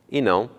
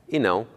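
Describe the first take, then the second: Both takes have the same delivery.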